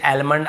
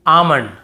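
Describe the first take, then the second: First: "आलमंड" with the L sounded, slower; wrong L sounded. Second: "आमंड" said aamand, with no L; silent L. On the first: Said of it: "आलमंड नहीं पढ़ेंगे". ("आलमंड" एल बोलते हुए, गलत तरीका) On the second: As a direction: say "आमंड" with the L left out. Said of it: "आलमंड ऐसे बोल देते हैं". ("आमंड" बिना एल के) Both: Shown as a demonstration.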